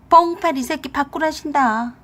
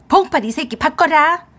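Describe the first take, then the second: First: Raised voice passing on an order; pointed relaying. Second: Loud, high angry demand; furious mother-in-law demanding her son. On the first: Wife handing husband his mother's call, pointedly. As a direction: relay the angry demand with relish. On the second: Mother-in-law ordering her son onto the phone, furious. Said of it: "어머니가 화가 많이 나셨네". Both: A narrator's reading.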